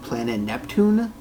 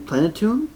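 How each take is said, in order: First: It is said with an extra 'nep' sound. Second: It is said without an extra 'nep' sound. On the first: "I'm adding an extra N and E that isn't exactly there" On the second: "Whatever they're saying"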